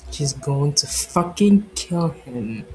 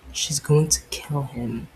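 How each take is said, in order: First: Fucking slow and hit louder; stress on fucking. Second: Said in the usual way. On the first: Shown as a demonstration. Narrator repeating the line to stress fucking. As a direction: lean into fucking, slowly.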